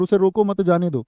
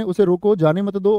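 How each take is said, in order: First: Quick recap, मत grouped with उसे रोको; break after मत. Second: Quick recap, उसे रोको set apart from जाने मत दो; break after रोको. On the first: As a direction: set जाने दो apart after मत. ("मत" के बाद हल्का विराम) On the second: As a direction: keep मत with जाने दो. ("रोको" के बाद हल्का विराम) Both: Shown as a demonstration. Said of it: "अर्थ बदल गया".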